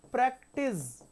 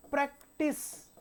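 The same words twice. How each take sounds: First: "प्रैक्टिस" ending in a buzzing, voiced z; z sound. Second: "प्रैक्टिस" ending in a sharp, voiceless s; s sound. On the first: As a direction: say "प्रैक्टिस" with a z at the end, like the verb. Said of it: "ये ज का pronunciation है". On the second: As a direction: say "प्रैक्टिस" with a hissing s at the end, like the noun. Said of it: "ये स का pronunciation है". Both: Shown as a demonstration.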